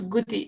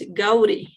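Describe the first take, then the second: First: The first vowel sounds like 'oo'. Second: The first vowel sounds like 'ow'. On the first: The speaker calls it wrong. "it's not guti" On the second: The speaker calls it right. "It's like an A, an open A in Spanish"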